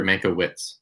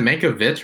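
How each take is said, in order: First: Mankiewicz ending in "wits", "MAN-ko-wits"; pronounced with WITS. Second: Mankiewicz ending in a v sound, "MAN-ko-vitch"; pronounced with VITCH. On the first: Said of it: "Is it Mankiewicz or Mankiewicz?". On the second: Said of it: "Vitch, right?". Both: Shown as a demonstration.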